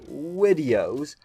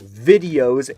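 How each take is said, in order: First: The word begins with a W sound. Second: The word begins with a V sound. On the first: "he pronounces the word videos with a W" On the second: "instead of sounding like videos"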